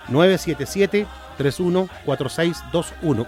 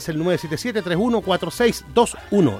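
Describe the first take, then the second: First: The number is said at a slower pace. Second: The number is said at a quicker pace.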